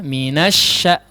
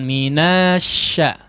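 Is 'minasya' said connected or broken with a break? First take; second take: connected; broken. First: The syllables run together without any break. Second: There is a small break before the second part. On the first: The speaker calls it right. "dilangsungkan ya" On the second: The speaker calls it wrong. "Jangan minasya ya"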